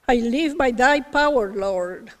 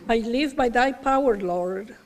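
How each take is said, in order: First: It is said out loud. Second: It is said in a softer voice.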